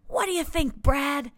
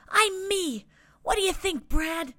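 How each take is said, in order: First: Proud little guy repeated. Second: Proud little guy. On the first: Asks Brad again. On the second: Little guy shows off new look. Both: A narrator's reading.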